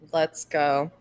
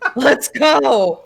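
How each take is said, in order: First: It is said in the speaker's own voice. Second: It imitates the other host's way of saying it.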